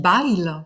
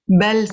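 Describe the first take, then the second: First: The name is said with a southern French vowel. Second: The name is said with a standard French vowel.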